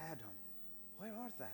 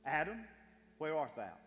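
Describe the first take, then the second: First: Tender call from a loving God. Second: Loud, harsh call of Adam's name; angry summons to a hiding man; condemning shout. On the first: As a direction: call gently, longing for him. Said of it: "I believe he called it out of love". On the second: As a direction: bark it out as a stern accusation. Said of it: "God did not scream that in condemnation". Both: Shown as a demonstration.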